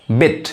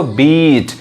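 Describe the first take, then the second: First: बिट said fast with a short i; short vowel. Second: बीट with a long, held ee; long vowel. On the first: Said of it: "जो बिल्कुल fast पढ़ा है, तेजी से". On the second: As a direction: stretch out the ee in बीट. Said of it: "यानी बड़ी sound". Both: Shown as a demonstration.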